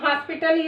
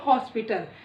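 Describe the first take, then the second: First: The first vowel is not an open 'aw'. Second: The first vowel is an open 'aw'. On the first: The speaker calls it wrong. "इसको हम हॉस्पिटल या ऑफिस नहीं कहते" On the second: The speaker calls it right. "और इसको हॉस्पिटल"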